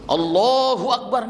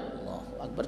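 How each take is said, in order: First: It is said loudly. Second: It is said quietly.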